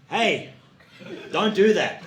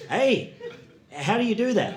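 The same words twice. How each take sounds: First: Firm mock reprimand, pitched up; lightly acted telling-off; bossy supervisor. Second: Higher, puzzled question; mock-curious, pitched-up query; baffled learner. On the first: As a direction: call out a correction like a supervisor. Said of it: "I would be in a supervisory role". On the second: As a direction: ask like a clueless trainee.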